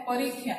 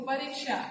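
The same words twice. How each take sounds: First: परीक्षा as 'po-reek-khyaa', no 'sh'; Odia pronunciation. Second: परीक्षा with 'ksh', 'pa-reek-shaa'; Hindi pronunciation. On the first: Teacher demonstrating the Odia pronunciation to students. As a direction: turn परीक्षा's क्ष into 'khy'. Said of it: "Odia उच्चारण क्या होता है". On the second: Teacher demonstrating the Hindi pronunciation to students. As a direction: sound the 'sh' in परीक्षा. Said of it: "Hindi उच्चारण देखो". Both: Shown as a demonstration.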